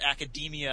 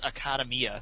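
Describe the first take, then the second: First: Academia is pronounced the English way. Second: Academia is pronounced the Japanese way. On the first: The speaker calls it right. "you pronounce it Academia, and that makes way more sense" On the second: The speaker calls it wrong. "the way I pronounce it, which is Academia"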